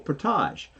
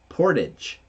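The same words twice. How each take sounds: First: The ending is said the French way, like 'aj'. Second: The ending is said like the English word 'age'. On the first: This is how people from Ontario say it. "we'll give it the French pronunciation, which is age" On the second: This is how people out west say it. "They'll say it as portage. They'll say it as age"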